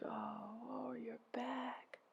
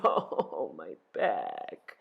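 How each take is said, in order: First: Whispery, lifted groan of sympathy; soft echoed groan. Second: Low, creaking groan. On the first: Helpers echo Ereshkigal's pain, hushed empathetic groan. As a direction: groan it back very softly. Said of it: "They groaned". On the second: Ereshkigal groaning over her back, low pained groan. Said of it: "She groaned". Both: A narrator's reading.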